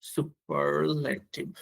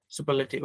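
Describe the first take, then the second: First: Very slow, stretched syllables; slow dictation. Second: Said in the usual way. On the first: Real, not acted. Teacher writing the term for learners, slow dictation. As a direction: sound the word out piece by piece while writing. Says the word while writing it.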